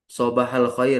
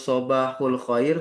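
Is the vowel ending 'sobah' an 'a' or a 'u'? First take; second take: a; u. First: The first word ends in an 'a' vowel. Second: The first word ends in an 'u' vowel. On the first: The speaker calls it right. "yang lebih fasih adalah sobah, sobahah" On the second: The speaker calls it wrong. "Bukan sobahu dengan domah"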